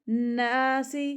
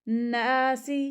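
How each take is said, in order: No difference in how they are said.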